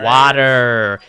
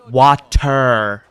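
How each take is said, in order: First: The T sound is weak or dropped. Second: The T sound is crisply pronounced. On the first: The speaker calls it wrong. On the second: The speaker calls it right.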